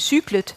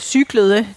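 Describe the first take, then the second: First: The ending is reduced, with the last syllable swallowed. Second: The full past-tense ending is pronounced. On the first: "det bliver til cyklet" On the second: "At cyklede, det bliver til cyklet"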